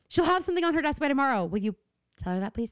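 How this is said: The line is said in a snippy, bitchy tone.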